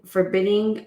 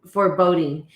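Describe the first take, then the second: First: Forbidding said as FOR-BID-ding, the misread word; stumbling over forbidding before fixing it; wrong reading. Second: Foreboding said as for-BODE-ing, the right word; corrected reading. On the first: Reader misreads the book word, testing forbidding. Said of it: "um, foreboding". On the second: Reader corrects herself, landing on foreboding. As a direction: settles on foreboding after the slip. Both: Shown as a demonstration.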